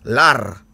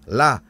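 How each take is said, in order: First: The word ends with an R sound. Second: The word ends on a vowel with no R. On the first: This is the southeastern form. "Di bagian Tenggara sudah pakai R" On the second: This is the local form. "Kalau di sini kita bilang darah lala"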